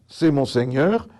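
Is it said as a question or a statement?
statement. It is said flat, ending like a statement. It simply states that this is the Lord. "point, phrase informative"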